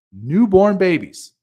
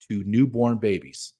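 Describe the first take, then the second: First: Newborn babies, higher, louder and slow, leaning on Newborn; emphatic repeat. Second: Said in the usual way. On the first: Real, not acted. Host hammering home to the listener, loud slow emphasis.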